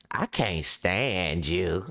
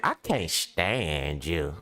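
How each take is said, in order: First: Slow, low, deadpan "I can't stand you."; mock hostile line. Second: Low, slow and deadpan, pretending dislike; mock hostile line. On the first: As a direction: say it flat and slow like a girl pretending to hate you. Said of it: "And they be like". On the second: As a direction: drag out the words like a cool brush-off. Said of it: "That's they compliment".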